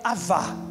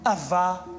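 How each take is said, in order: First: The middle consonant is a V sound. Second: The same.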